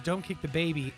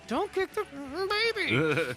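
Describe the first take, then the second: First: It is said in a calm, plain tone. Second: It is said in an exasperated tone.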